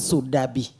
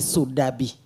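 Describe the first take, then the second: First: The middle consonant is a D sound. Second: The same.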